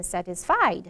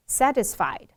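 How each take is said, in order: First: "satisfied" stressed on the last syllable; weight on "fied" in "satisfied"; misplaced stress. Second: "satisfied" stressed on the first syllable; weight on "sat" in "satisfied"; correct stress. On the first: Teacher imitating students' mistake, last syllable stressed. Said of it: "很多同学会念成". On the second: Teacher reading paragraph word correctly, first syllable stressed. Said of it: "把这个发音的重". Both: Shown as a demonstration.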